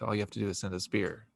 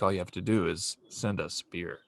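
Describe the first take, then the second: First: It is said in an ordinary speaking voice. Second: It is said in a put-on announcer-style voice. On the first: The speaker calls it wrong. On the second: The speaker calls it right.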